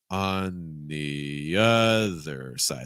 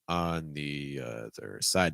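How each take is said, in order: First: The stress falls on the word other. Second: The stress falls on the word side. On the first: "if you're stressing other" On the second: "if you stress side"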